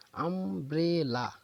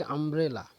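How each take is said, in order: First: "umbrella" very slowly as আম, ব্রে, লা; three-beat syllable split. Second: Said in the usual way. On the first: Shown as a demonstration. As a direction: stop after each syllable of "umbrella": আম - ব্রে - লা. ("Umbrella" ধীরে তিনবার থেমে ভেঙে বলা) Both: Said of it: "তাহলে দেখো তিনবার থামতে হয়েছে".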